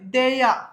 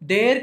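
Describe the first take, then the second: First: The word ends in a vowel, no r. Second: The word ends with a pronounced r sound. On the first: The speaker calls it right. "So టిహెచ్ఈఐఆర్ ఎలా చెప్పాలి?" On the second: The speaker calls it wrong. "దేర్ కాదండి"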